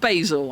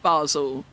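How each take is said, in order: First: It is said with the American pronunciation. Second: It is said with the British pronunciation. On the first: The speaker calls it wrong. "but not Basil. Americans can say basil" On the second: The speaker calls it right. "I will accept"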